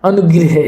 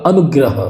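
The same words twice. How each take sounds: First: अनुग्रह said as "anugrih"; wrong vowel, "grih". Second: अनुग्रह said as "anugrah"; correct "grah" ending. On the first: Teacher shows students the mistake, अनुग्रह said as "anugrih". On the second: Teacher corrects students' spelling, अनुग्रह said as "anugrah". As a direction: open "a" in the last syllables of अनुग्रह. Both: Shown as a demonstration. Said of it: "अनुग्रह नहीं होगा".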